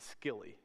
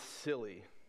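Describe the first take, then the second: First: The word begins with a hard K sound. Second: The word begins with a soft S sound. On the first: The speaker calls it wrong. "Unless you pronounce the C hard, it would be Scilly" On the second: The speaker calls it right. "But I believe it's Scilly"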